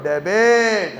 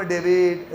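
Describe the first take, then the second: First: A strong "debit", said louder with a falling end; a louder, confident "debit"; loud and firm. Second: Weak, lifeless "debit" said like a dummy; a lazy, limp "debit". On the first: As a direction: bark out "debit" with force. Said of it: "ऐसे जोर से". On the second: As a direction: mumble "debit" half-heartedly like a lazy kid. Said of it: "ऐसे लल्लू की तरह नहीं". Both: Shown as a demonstration.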